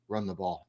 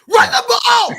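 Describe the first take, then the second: First: It is said calmly and quietly. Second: It is shouted loudly, losing composure.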